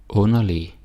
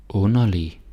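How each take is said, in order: No difference in how they are said.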